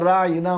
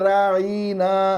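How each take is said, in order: First: The word is said with its vowels kept short. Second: The word is said with a vowel stretched out. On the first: A polite request for attention. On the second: An insult calling someone a fool or shepherd.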